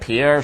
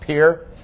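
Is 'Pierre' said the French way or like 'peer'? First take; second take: French; peer. First: It is said the French way. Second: It is said like the word 'peer'. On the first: The speaker calls it wrong. "It looks like Pierre Shale. Don't pronounce it that way" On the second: The speaker calls it right. "It's pronounced Pierre"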